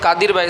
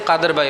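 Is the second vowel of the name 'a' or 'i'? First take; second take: i; a. First: The second syllable has an 'i' vowel. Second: The second syllable has an 'a' vowel. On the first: "दाल का जो ज़ेर होता है" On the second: "उसको ज़बर से बदल देते हैं"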